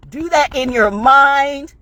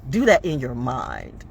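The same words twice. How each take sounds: First: MIND drawn out high and loud; slow and loud, pitch soaring on MIND; emphatic insistence. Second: Said in the usual way. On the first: Real, not acted. Speaker urging listeners to only imagine the punch, emphatic insistence. Repeats advice, building in intensity.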